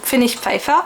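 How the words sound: The name is pronounced the German way. "je le prononce à l'allemande"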